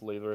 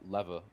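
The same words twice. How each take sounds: First: The word is said with a British pronunciation. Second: The word is said with an American pronunciation. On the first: This is how people here say it. The speaker calls it right. "supposed to be pronounced lever here" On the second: This is how the speaker always said it. The speaker calls it wrong. "I pronounced it uh, lever the whole time"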